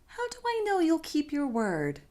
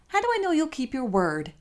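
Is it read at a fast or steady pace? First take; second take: steady; fast. First: It is read at an even, steady pace. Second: It is read quickly.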